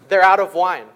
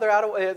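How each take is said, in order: First: It is said in a pointed, meaningful tone. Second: It is said in a light, offhand tone. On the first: It is a hint that someone should do something. The speaker calls it right. "It's probably like" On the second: It is a passing remark with no demand. The speaker calls it wrong. "I'm sure it wasn't just like, oh"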